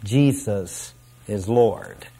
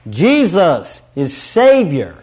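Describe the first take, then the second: First: Slow, low and soft, petering out; half-hearted, unenthusiastic mumbled declaration; trailing away. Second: Triumphant declaration. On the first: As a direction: let the voice sag and fade reluctantly. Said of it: "they will trail away". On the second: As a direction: proclaim it like a crowd rejoicing. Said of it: "will join their voices triumphantly". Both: Retold or imitated.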